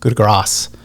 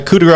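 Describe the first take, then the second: First: The last word ends with an s sound. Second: The last word ends without an s sound. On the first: The speaker calls it right. "it's coup de grace. And I think I think it's spelled G R A C E" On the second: The speaker calls it wrong. "I hear all the time, and it just makes me cringe"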